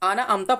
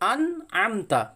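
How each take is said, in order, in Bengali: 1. n টা 'ana' হিসেবে একটানা চলে, কোনো গলার আটকানো ছাড়া। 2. বন্ধ 'an' এর পরে একটি স্পষ্ট গলার শব্দ আসে। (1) "অনেক ভাই ভুল করে আনা আমতা পড়ে" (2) "হামজা নুন জাবার আন"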